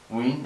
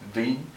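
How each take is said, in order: First: The word starts with a clear W sound. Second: The word starts with a clear V sound. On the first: "If you pronounce it as a straight W, wing, that's also incorrect" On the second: "If you pronounce it as a straight V, well, that's incorrect"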